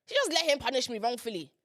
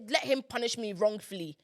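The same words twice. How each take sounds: First: Hushed, voiceless repeat of the accusation; dramatic whisper. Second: Said in the usual way. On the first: Shown as a demonstration. Daughter whispers her grievance against mum, hushed. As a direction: whisper it like a bitter secret.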